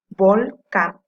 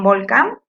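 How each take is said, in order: First: "volcán" split as "vol", pause, "cán"; syllable by syllable. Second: Said in the usual way. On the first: Shown as a demonstration. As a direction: break "volcán" into two loud syllables. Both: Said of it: "Can es su sílaba tónica".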